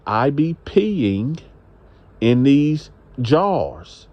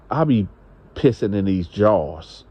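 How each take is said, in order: First: Spelled-out slow, stretching each word with pauses; slow, deliberate repeat. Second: Said in the usual way. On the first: Retold or imitated. Woman repeats herself to a man who questioned her, slow and deliberate. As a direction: repeat it very slowly so it gets across. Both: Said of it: "Come again, what you say?".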